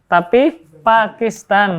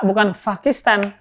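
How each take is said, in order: First: "Pakistan" with a clear p, drawn out; correct p, slow. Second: "Pakistan" with an f, as "Fakistan"; wrong f sound. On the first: Teacher giving students the corrected version after the wrong one. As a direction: say "Pakistan" slowly with a plain p. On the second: Teacher showing students the wrong f version, not Arabic. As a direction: start "Pakistan" with a breathy f. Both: Shown as a demonstration. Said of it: "pa bukan fa".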